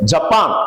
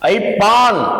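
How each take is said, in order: First: The word begins with a 'j' consonant sound. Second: The word begins with an 'ai' vowel sound. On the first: The speaker calls it right. "அது ஜப்பான்" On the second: The speaker calls it wrong. "ஜாவுக்கு ஐக்கு வித்தியாசம் தெரியல"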